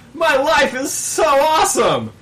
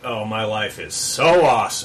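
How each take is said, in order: First: The tone is sincere and happy. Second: The tone is sarcastic and mocking. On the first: He truly enjoys his life. "because he was smiling as he shot" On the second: He means the opposite of what he says. "he could have been saying it sarcastically, like"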